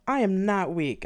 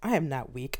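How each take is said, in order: First: Slow, louder angry denial; breathless angry insistence; said angrily. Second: Said in the usual way. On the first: Acted. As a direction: bite out each word. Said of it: "I said angrily". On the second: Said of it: "a slow litany began in my head".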